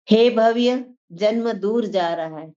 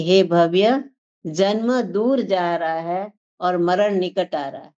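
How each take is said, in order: First: Said in the usual way. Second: Slow, weighty scripture line; slow solemn quote. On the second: Shown as a demonstration. Preacher repeating the sage's warning to listeners, slow and solemn. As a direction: let each word of the warning land slowly. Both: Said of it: "क्या कहते हैं कि".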